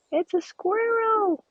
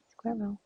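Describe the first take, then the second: First: Much higher, louder and drawn out; thrilled high cry; excited squeal. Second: Said in the usual way. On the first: Real, not acted. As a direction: squeal it with delight, slowly. Spots a squirrel in game.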